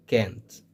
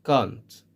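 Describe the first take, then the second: First: "can't" with an American a, as in cat; American pronunciation of can't. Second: "can't" with a long British ah; British pronunciation of can't. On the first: Teacher contrasts accents for learners, American front-a "can't". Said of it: "In American English". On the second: Teacher contrasts accents for learners, British broad-ah "can't". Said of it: "in British English". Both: Shown as a demonstration.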